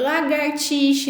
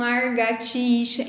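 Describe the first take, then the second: First: The r sound is in the second syllable. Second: The r sound is in the first syllable. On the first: The speaker calls it right. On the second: The speaker calls it wrong. "e não largatixa"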